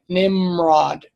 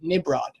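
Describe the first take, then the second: First: An M sound comes before the R. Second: A B sound replaces the M before the R. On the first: This is the Hebrew form of the name. "now look at look at how I'm saying it" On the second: This is the Greek form of the name. "They throw out the M"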